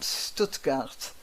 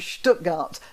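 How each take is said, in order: First: The name is pronounced the way outsiders say it. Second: The name is pronounced the way locals say it. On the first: The speaker has not lived there. The speaker calls it wrong. "and not Stuttgart" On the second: The speaker has lived there. The speaker calls it right. "I've spent time in Stuttgart because I say Stuttgart"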